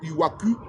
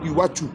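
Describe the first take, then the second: First: The middle consonant is a hard 'k' sound. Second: The middle consonant is a 'ch' sound. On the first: The speaker calls it wrong. "ils ne disent pas Iwaku" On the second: The speaker calls it right. "mais ils disent Iwachu"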